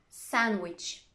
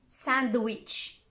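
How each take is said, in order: First: The D sound is left out. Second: The D sound is clearly pronounced. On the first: The speaker calls it right. "I'm not pronouncing the D" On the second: The speaker calls it wrong. "I'm not saying sandwich"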